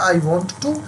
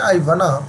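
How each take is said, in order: First: Want and to are said as two full words. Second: Want and to are blended into one word. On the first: "आपने जवाब में बोल दिया I वॉन्ट टू" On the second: "वॉन्ट टू ना बोलकर आप क्या बोल सकते हैं"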